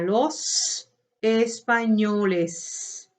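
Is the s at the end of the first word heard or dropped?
heard. The final s of the first word is clearly said. "en España"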